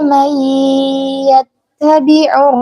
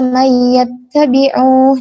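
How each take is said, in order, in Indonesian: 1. n menyatu ke y dengan dengung. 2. n diucapkan dengan jelas sebelum y. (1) "tapi illa lina'lama man yattabi'ur" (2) "Jangan jelas man yattabi'u"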